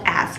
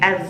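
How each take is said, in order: First: The word ends with a hissing s sound. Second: The word ends with a buzzing z sound. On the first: The speaker calls it wrong. "not as" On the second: The speaker calls it right. "pronounce as like as with z at the end"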